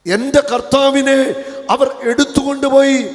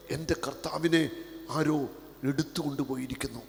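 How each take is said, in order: First: Loud, high wail, stress on കർത്താവിനെ; anguished cry. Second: Hushed lament. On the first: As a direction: cry out for the lost Lord. Repeats Mary's lament loudly. (ഉച്ചത്തിലുള്ള വിലാപം) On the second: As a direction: say it quietly to yourself. Same lament, now hushed. (മൃദുവായ വിലാപം) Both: Acted.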